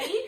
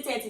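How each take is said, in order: First: "thirty" put on in a formed American accent; American-style thirty. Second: "thirty" said the Nigerian way, with a hard t; Nigerian-style thirty. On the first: Showing how you have to say it here, American-style "thirty". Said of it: "you have to form the". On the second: Showing what listeners might not understand, Nigerian-style "thirty". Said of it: "they might not know what you're saying". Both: Shown as a demonstration.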